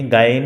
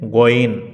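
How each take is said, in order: First: গাইন said the common wrong way with a long aa; wrong pronunciation. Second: গইন with short o and a throaty gh; correct pronunciation. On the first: Teacher showing students the wrong গাইন. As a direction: demo the mistaken গাইন. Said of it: "এটি শুদ্ধ নয়". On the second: Teacher giving students the correct গইন. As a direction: give the correct গইন clearly. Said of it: "শুদ্ধ উচ্চারণ হচ্ছে". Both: Shown as a demonstration.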